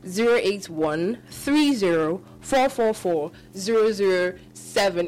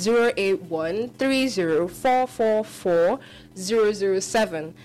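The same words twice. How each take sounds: First: Digits spaced out, slower still; radio host repeating the number slowly; slow repeated dictation. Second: Each digit spaced out slowly; careful number dictation for callers; slow, clear dictation. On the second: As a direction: read the number slowly for listeners. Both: Shown as a demonstration. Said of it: "In case you didn't hear".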